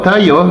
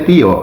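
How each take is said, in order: First: The name is pronounced the English way, like 'Tayo'. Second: The name is pronounced the Indonesian way, like 'Tio'. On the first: The speaker calls it wrong. "bahasa Inggris kan jadi bacanya gitu" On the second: The speaker calls it right. "maunya Tio gitu loh"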